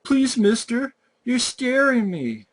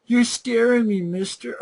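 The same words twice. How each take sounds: First: Put-on high, whiny little-kid voice, pleading; mocking a kid pleading with the killer; mock scared kid. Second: Mock the kid's pleading in a squeaky voice; sarcastic replay of the kid's whimper; mock scared kid. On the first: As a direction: ham up a terrified child begging. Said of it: "And then he's like". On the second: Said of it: "you stop and go".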